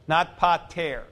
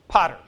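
First: The stress is on the second syllable. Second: The stress is on the first syllable. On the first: The word names the subject of the sentence. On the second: Someone is being addressed directly.

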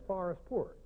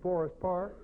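First: The first syllable has the 'ar' vowel. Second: The first syllable has the 'or' vowel. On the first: The local St. Louis pronunciation. "we have the habit of inserting or reversing O-R and A-R sounds" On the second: The standard pronunciation. "You mean Forest Park?"

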